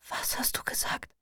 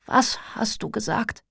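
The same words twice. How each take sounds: First: Hushed whisper, barely any voice; whispered from a hospital bed. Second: Voiced, slower, pushed a little louder; repeated louder so they can hear; speaking louder. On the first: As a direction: breathe the question out unvoiced. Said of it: "flüstere ich". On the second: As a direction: push the question out past the weakness. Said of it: "Ich spreche lauter". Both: A narrator's reading.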